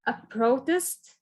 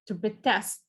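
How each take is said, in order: First: A protest slowed, PRO stressed. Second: To protest, TEST stressed. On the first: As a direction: drag out the noun, weight on PRO. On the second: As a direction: verb form, lean on test. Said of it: "a verb". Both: Shown as a demonstration.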